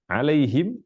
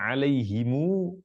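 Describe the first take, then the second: First: The word ends in him with a bare m. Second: The word ends in a lengthened mu after him. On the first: "kita baca alaihim bersukun mimnya" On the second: "mu didomahkan mimnya dan baca panjang"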